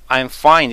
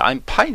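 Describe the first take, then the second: First: The word fine starts with an f sound. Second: The word fine starts with a p sound. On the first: It means 'I am well.' The speaker calls it right. "I'm fine 이래야 되는데" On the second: It means 'I am a pine tree.' The speaker calls it wrong. "I'm fine 해버려요"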